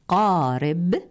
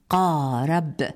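First: The r sound carries an i vowel. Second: The r sound carries an a vowel. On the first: The speaker calls it right. "بكسر الراء" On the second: The speaker calls it wrong. "لا قارب بفتحها"

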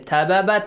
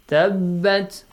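First: A vowel splits the two b sounds. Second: The b sound is held doubled without vowel. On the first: The speaker calls it wrong. "you don't say tababat, no. Even it's wrong" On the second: The speaker calls it right. "Because it has tashdeed"

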